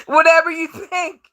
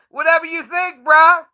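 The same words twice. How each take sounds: First: Higher, laughing brush-off; laughing dismissal. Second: Higher, scoffing brush-off; dismissive. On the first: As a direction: scoff through laughter. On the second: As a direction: wave him off with a laugh. Dismissive after laughing. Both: Real, not acted.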